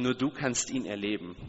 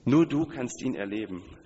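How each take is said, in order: First: Said in the usual way. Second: "Nur" punched louder, falling tune on "erleben"; stress on nur du. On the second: Shown as a demonstration. Preacher to congregation, emphatic stress on "Nur". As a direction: hit "Nur" hard, then let the line fall. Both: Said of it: "Darauf liegt die Betonung".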